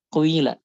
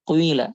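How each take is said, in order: No difference in how they are said.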